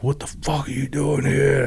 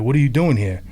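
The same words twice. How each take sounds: First: Menacing, knife-in-hand confrontation; retelling a veteran cornering a door-to-door salesman, intense; really intense. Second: Said in the usual way. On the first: Retold or imitated. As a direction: lean into the threat, pitched up. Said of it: "like, really, you know, really intense". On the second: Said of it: "really intense".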